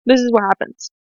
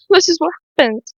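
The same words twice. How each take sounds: First: Said in the usual way. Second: High voice, laughing through tears; tearful laugh. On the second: Real, not acted. Vlogger explains her returning tears, tearful laugh. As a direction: laugh helplessly as the crying returns. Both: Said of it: "I'm gonna cry again".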